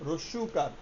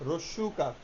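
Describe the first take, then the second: No difference in how they are said.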